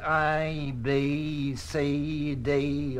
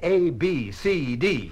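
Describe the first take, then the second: First: The first letter is said like the word eye. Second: The first letter is said with a clear ay vowel. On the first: The speaker calls it wrong. "the result is I, B, C, D, ugh" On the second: The speaker calls it right. "Say A, B, C, D"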